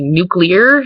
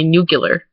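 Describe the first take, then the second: First: "nuclear" with a clear -klee-er ending; standard pronunciation. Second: "nuclear" with the ending turned to -kyuh-ler; Michigan pronunciation. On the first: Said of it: "it's supposed to be pronounced". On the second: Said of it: "I say nuclear". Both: Shown as a demonstration.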